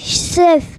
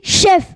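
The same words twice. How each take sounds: First: The word starts with a lisped 'z' sound. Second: The word starts with a clear 'sh' sound. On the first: The speaker calls it wrong. "Arrête de m'appeler chef" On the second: The speaker calls it right. "On dit chef"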